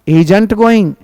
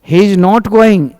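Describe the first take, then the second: First: 'Is not' is shortened into one word. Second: 'Is not' is said as two full words.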